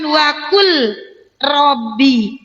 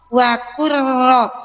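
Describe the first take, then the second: First: The L is sounded before the R. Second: The L merges fully into a doubled R. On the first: The speaker calls it wrong. "Kita tidak bunyikan wakul Robbi" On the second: The speaker calls it right. "Kita langsung ke huruf ro"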